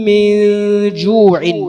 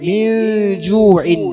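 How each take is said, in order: Both takes have the same delivery.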